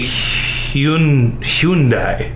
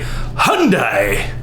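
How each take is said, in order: First: It attempts the original non-American pronunciation. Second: It uses the common American pronunciation. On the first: The speaker calls it right. "I think it would be Hyun, Hyundai. Correct" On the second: The speaker calls it wrong. "we don't pronounce it correctly in America either. We say Hyundai"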